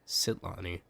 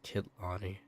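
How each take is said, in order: First: The name begins with an S sound. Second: The name begins with a K sound. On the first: The speaker calls it right. "like C" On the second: The speaker calls it wrong. "it's not Kitlani"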